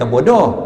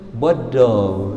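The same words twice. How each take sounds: First: It is said harshly, in the ordinary way. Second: It is said softly, the Terengganu way.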